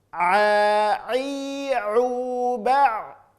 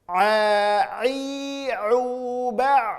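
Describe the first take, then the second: Both takes have the same delivery.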